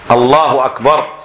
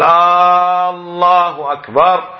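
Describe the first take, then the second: First: The first vowel of Allah is short. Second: The first vowel of Allah is drawn out long. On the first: It states that God is greater. The speaker calls it right. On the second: It asks whether God is greater. The speaker calls it wrong.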